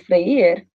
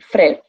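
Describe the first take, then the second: First: The word has two syllables, i said separately. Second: The word has one syllable, vowels merged together. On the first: "it gets its own individual sound instead of diphthongizing" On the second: "It would be a single syllable"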